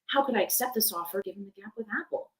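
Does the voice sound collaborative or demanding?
collaborative. It sounds friendly and collaborative. The speaker is working with the listener on a problem. "sound, you know, collaborative over a phone call"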